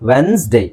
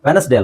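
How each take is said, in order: First: No vowel is pronounced after the n sound. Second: A vowel is pronounced after the n sound. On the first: The speaker calls it right. "ಇ ಸೈಲೆಂಟ್" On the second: The speaker calls it wrong. "ಈ ಇ pronounce ಮಾಡ್ತಾರೆ"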